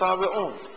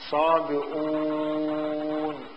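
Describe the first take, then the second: First: The word carries no extra u vowel. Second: The word carries three u vowels in a row. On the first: The speaker calls it right. "بينما التي تلفظ صابئون" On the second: The speaker calls it wrong. "ولو كانت تلفظ كما هي مرسومة لصارت عندنا 3 ضمات"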